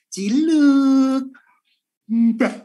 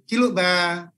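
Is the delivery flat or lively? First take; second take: lively; flat. First: It is said lively, with strong expression. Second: It is said flatly, without expression. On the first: The speaker calls it right. "nah, kan gitu ya" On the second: The speaker calls it wrong. "kan nggak mungkin"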